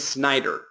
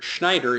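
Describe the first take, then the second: First: The name begins with an s sound. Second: The name begins with an sh sound. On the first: The speaker calls it right. "It is Snyder, Bob Snyder, not Schneider" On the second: The speaker calls it wrong. "Schneider is how I pronounced it"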